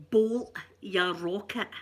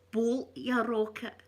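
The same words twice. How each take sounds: First: Slow, breathy whispered Glasgow ned phrase; Glasgow street accent. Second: Slow, voiced Glasgow ned phrase; Glasgow street accent. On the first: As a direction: whisper the ned insult slowly. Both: Shown as a demonstration. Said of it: "That's another wee Ned phrase".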